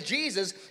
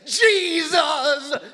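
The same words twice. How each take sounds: First: It is said plainly in the speaker's normal voice. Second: It is drawn out theatrically like a televangelist.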